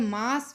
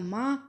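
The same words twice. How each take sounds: First: मास with final s; Hindi form. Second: माह as maah, no final s; Punjabi form. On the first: Teacher giving the Hindi word, मास with s. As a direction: close मास on s. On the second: Teacher showing the Punjabi form, open-ended माह. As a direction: end माह on the open vowel. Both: Shown as a demonstration. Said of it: "Punjabi च हो जाएगा".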